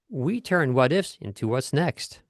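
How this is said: The word into is dropped and swallowed.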